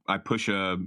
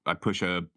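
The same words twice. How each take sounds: The two takes are said the same way.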